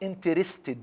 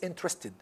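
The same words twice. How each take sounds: First: All four syllables are pronounced fully. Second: One syllable is dropped, leaving three. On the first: The speaker calls it wrong. "not interested" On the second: The speaker calls it right. "No, it's interested"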